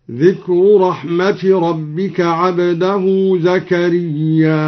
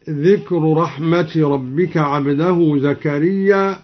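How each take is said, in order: First: Measured tajweed recitation, long final aa in زكريا before a glottal stop; Quranic hamza demonstration. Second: Said in the usual way. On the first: Shown as a demonstration. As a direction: chant it slowly, with زكريا drawn out long and closed on a hamza. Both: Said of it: "أثبت الهمز في زكريا هكذا".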